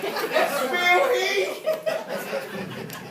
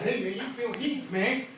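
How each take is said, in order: First: High, loud fangirl squeal; starstruck young girl. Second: Said in the usual way. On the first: Acted. Gym-goer spots his bodybuilding idol, starstruck girlish squeal. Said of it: "like [name] and I'm nine-year-old girl". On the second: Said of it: "I was like".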